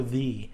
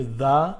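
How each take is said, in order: First: "the" pronounced thee, with a long E; THE rhyming with see. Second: "the" pronounced thuh, slightly drawn out; THE rhyming with duh. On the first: Teacher naming the second way to say it, THE as thee. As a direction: say "the" to rhyme with see. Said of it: "you say it as the". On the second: Teacher naming the first way to say it, THE as thuh. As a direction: say "the" to rhyme with duh. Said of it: "you say the. It rhymes with". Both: Shown as a demonstration.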